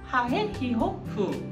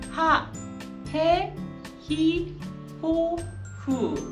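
First: The syllables are said quickly in succession. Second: The syllables are said slowly and clearly. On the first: "좀 빠르게" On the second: "천천히 시작을 하시는데"

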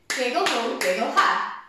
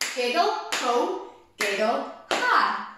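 First: It is said quickly, at a fast pace. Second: It is said at a normal, unhurried speed.

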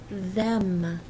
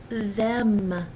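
No difference in how they are said.

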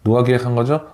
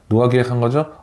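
First: The question sounds annoyed and complaining. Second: The question sounds annoyed and complaining.

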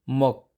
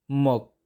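First: The final s sound is silent. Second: The final s sound is silent.

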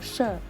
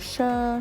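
First: The syllable is said in tone four, falling. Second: The syllable is said in tone one, level. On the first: "เสียงสี่ไม้โท" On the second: "เราจะผันตามลำดับไป"

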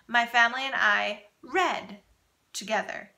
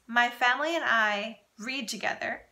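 First: The word 'read' is pronounced like 'red'. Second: The word 'read' is pronounced like 'reed'. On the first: It happened in the past. "or in the past tense" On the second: It happens regularly, in the present. "this sentence could be in the present tense"

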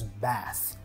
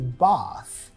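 First: The A has a flat American vowel. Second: The A has a broad British 'ah' vowel.

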